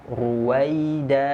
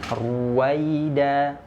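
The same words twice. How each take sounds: The two takes are said the same way.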